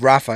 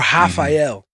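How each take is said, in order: First: The name is said in an English way. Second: The name is said in a Brazilian way. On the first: "instead of" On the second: "Brazilians say ... or Rafael"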